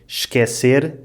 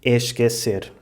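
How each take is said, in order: First: The initial vowel is dropped, starting with sh. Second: The initial vowel is clearly pronounced. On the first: The speaker calls it right. "em vez de dizerem esquecer" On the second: The speaker calls it wrong. "dizem esquecer, o que não soa muito português"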